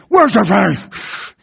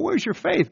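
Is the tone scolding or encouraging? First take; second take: scolding; encouraging. First: It is said in a stern, scolding tone. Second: It is said in a warm, encouraging tone.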